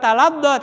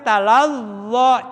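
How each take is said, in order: First: The middle consonant is pressed hard, like dod. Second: The middle consonant is soft with air flowing. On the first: The speaker calls it wrong. "bukan taladdo" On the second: The speaker calls it right. "jangan ditekan. Ya, masih ada angin"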